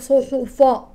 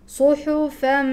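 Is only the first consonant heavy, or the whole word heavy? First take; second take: whole word; first consonant. First: The whole word is pronounced heavy and thick. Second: Only the first consonant is pronounced heavy. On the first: The speaker calls it wrong. "لا أقول صحفا" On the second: The speaker calls it right. "إنما الصاد فقط هو المفخم"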